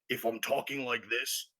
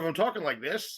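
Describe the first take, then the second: First: It is spoken in a put-on character voice. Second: It is spoken in the speaker's natural voice. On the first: The speaker is talking in character. "you know I'm talking in character" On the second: The speaker is talking out of character. "you know I'm talking out of character"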